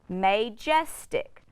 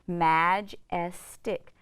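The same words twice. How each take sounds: First: The first vowel is a long 'ay' sound. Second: The first vowel is a short 'a' sound. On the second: "my A is now going to make a short vowel sound"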